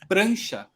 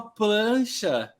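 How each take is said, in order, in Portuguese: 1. A palavra começa com o som 'pr'. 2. A palavra começa com o som 'pl'. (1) "É prancha" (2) "Ela chegou e falou pra mim, tipo assim, ó"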